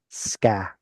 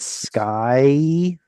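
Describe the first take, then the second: First: The vowel is a single plain ah. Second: The vowel glides from ah to ee.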